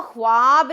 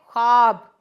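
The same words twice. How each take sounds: First: ख्वाब said as "khwaab", w clearly sounded; drawn-out "khwaaab" for ख्वाब, voicing the silent w; vav wrongly sounded. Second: ख्वाब said as "khaab", no w sound; silent vav. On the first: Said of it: "हम इसको ख्वाब नहीं पढ़ेंगे". (ख्वाब को ग़लत तौर पर "ख़्वाब" बोलें, व साफ़ सुनाते हुए) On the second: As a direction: drop the written w in ख्वाब: "khaab". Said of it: "वाओ लिखा तो जाएगा पर बोला नहीं जाएगा". (ख्वाब को "ख़ाब" बोलें, व की आवाज़ के बिना) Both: Shown as a demonstration.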